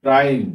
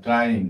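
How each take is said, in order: First: ট্রাইং said loud with a clear ai glide, falling; model pronunciation. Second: Said in the usual way. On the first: Shown as a demonstration. Teacher presenting ট্রাইং to students, loud and clear. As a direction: announce ট্রাইং loudly as the model. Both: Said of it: "যেরকম দেখো".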